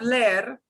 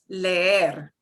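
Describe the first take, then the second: First: The 'e' vowel sound is short and clipped. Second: The 'e' vowel sound is long and drawn out. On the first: The speaker calls it wrong. "Instead of leer" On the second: The speaker calls it right. "I'm just dragging that eh sound out"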